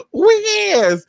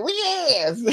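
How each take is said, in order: First: High, loud emphatic yes; sassy repeat of the catchphrase, higher and louder; louder sassy agreement. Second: Sassy agreement. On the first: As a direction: belt it out with attitude. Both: Retold or imitated. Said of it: "I'm like".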